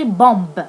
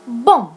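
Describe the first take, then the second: First: A b sound is heard at the end. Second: No b sound is heard at the end. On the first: The speaker calls it wrong. "We can't we can't say bomb" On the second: The speaker calls it right. "We say bomb. The B is silent"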